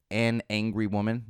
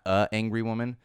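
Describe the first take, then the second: First: "an angry woman" with a clear "an" before "angry"; correct grammar. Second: "a angry woman" with a bare "a" before "angry"; wrong grammar. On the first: Host showing the correct grammar, "an angry woman" with full "an". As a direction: sound out "an" fully before "angry". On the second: Host showing the wrong grammar, "a angry woman" with bare "a". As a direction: drop the n, just "a angry woman". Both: Shown as a demonstration. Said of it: "I do appreciate the grammar used here".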